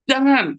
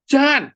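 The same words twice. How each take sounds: First: High, loud one-word imitated shout; thunderous yell. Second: Sudden high, loud imitated bark; thunderous shout. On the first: Father startling his children into silence, re-enacted shout. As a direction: yell it suddenly to freeze someone. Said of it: "kalau saya teriak". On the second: Father startling his small child, re-enacted thunder shout. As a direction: boom out one sharp scolding word. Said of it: "suaranya kayak gledek".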